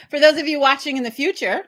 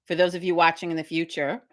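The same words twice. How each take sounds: First: Louder, higher, laughing through it; high giggly retake. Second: Said in the usual way. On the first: Shown as a demonstration. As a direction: laugh while repeating it.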